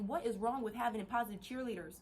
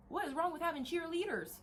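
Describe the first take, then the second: First: Said in the usual way. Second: Raised-pitch repeat of the challenge; higher, insistent rhetorical question; incredulous question. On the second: Real, not acted. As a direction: push the question up high, as if baffled.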